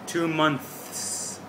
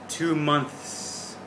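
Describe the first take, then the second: First: The two words are joined together smoothly. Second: The two words are joined together smoothly.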